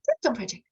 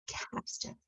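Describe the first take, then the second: First: It is said fast. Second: It is said slowly.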